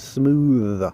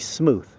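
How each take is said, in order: First: The TH is voiced, with a buzzing sound. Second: The TH is voiceless, with no buzzing. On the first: The speaker calls it right. "He's a smooth operator" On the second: The speaker calls it wrong. "You don't say smooth"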